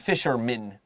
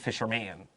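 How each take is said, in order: First: The last syllable is reduced to 'min'. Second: The last syllable is a full 'man'. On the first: The speaker calls it right. "that man will become min" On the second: The speaker calls it wrong. "not a fisherman"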